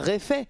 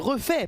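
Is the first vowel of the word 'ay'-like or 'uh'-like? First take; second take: ay; uh. First: The first vowel is a closed 'ay' sound. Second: The first vowel is a neutral 'uh' sound. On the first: The speaker calls it wrong. "pas réfait" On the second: The speaker calls it right. "on dit je suis refait"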